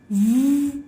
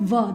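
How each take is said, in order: First: The consonant is said alone without a vowel. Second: The consonant is followed by an added vowel. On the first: The speaker calls it right. "This is v" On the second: The speaker calls it wrong. "This is not va"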